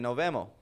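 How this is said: The s sounds are dropped.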